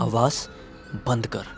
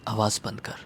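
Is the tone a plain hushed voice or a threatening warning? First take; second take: warning; hushed. First: It is said in a threatening warning tone. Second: It is said in a pressed, hushed voice.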